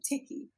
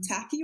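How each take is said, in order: First: The first vowel sounds like 'i' in 'sit'. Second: The first vowel sounds like 'a' in 'cat'. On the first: "sometimes becomes tickies because there's so many different dialects here" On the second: "The A"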